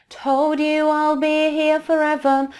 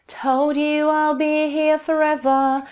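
Both takes have the same delivery.

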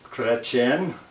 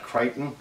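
First: The name is said the French way, like 'Chretien'. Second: The name is said like the English 'Crichton'. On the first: The speaker calls it right. "it is a Ritchey Chretien" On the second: The speaker calls it wrong. "not Crichton. I love the way everybody mispronounces that name"

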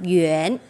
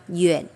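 First: The pitch rises from mid to high. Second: The pitch dips low and then rises. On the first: "Thêm dấu sắc đọc Duyên" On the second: "thêm dấu thanh ba"

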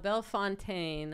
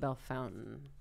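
First: The name is said the usual way. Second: The name is said the local Ohio way.

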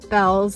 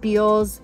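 First: The name is said with a short 'eh' vowel. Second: The name is said with a long 'ee' vowel. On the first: The speaker calls it wrong. "not Bells. If it was Bell, wouldn't you spell it B-E-L-L?" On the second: The speaker calls it right. "B-E-A-L-L-S is Beals"

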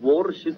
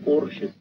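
First: The first sound is a W sound. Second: The first sound is not a W sound. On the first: The speaker calls it wrong. "Sie sagen auch nicht zu Ihrem Direktor, geben Sie mir einen Wurschuss" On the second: The speaker calls it right. "sondern einen Porschuss"

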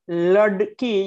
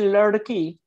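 First: The middle consonant is a full stop. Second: The middle consonant is a quick flap. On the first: The speaker calls it wrong. "you don't say ladki" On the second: The speaker calls it right. "you say ladki. You're flapping it"

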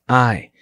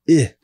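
First: The vowel is long, as in eye. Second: The vowel is short, as in sit. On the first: The speaker calls it wrong. "not I" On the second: The speaker calls it right. "Two S's make the I short. Therefore, it becomes I"

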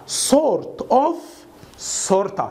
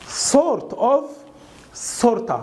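No difference in how they are said.

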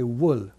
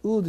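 First: It begins with a w glide. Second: It begins with a plain u vowel. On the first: The speaker calls it right. "英語ではW がありますから" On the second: The speaker calls it wrong. "ウールじゃなくて"

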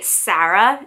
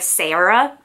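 First: It is said with a New England accent. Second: It is said with a general American accent. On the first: "I say Sarah" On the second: "instead of Sarah"

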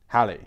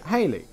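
First: The first syllable rhymes with 'valley'. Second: The first syllable sounds like 'hay'. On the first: The speaker calls it right. "the name is meant to rhyme with Valley" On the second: The speaker calls it wrong. "Most people seemed to pronounce it Halley, a confusion that was possibly sparked by memories of the 1950s rock band [name]"

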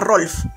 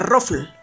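First: The name is pronounced like Rolf. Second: The name is pronounced like Ruffle. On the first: This is how many people say it. The speaker calls it wrong. "mucha gente le llama Rolf" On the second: This is the proper pronunciation. The speaker calls it right. "Si se pronuncia Ruffle"

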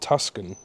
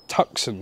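First: The middle has an s followed by k. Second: The middle has an s sound with no k. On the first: The speaker calls it wrong. "not Tuscan. I've been calling it the wrong name" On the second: The speaker calls it right. "it's Tucson"

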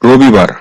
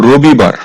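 The two takes are said the same way.

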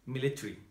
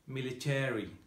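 First: It is said with a British accent. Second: It is said with an American accent.

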